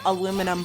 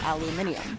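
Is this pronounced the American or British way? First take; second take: American; British. First: It is said in an American accent. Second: It is said in a British accent. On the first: "we have aluminum foil" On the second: "they have aluminium"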